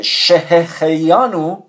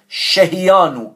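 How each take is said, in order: First: Slow, deliberate "شهخیانو" with a clear throaty kh after she-he; careful correct pronunciation. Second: "شهیانو" with the throaty kh syllable dropped, she-hi-yanu; mispronunciation demo. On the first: Teacher showing the class the proper blessing word, careful "شهخیانو" with clear kh. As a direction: sound out every syllable of "شهخیانو", kh fully audible. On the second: Teacher quoting how some people say it, faulty "شهیانو" missing its kh. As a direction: say "شهیانو" higher, as the faulty version without kh. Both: Shown as a demonstration.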